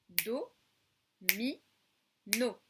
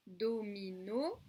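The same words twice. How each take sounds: First: "do, mi, no" split into three separate beats; "do, mi, no" said as separate clapped syllables. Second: Said in the usual way. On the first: Shown as a demonstration. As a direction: clap out each syllable of "do, mi, no". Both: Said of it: "combien de syllabes".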